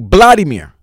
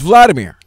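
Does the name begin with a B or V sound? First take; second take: B; V. First: The name begins with a B sound. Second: The name begins with a V sound. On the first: "The V turns into a B" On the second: "my name is"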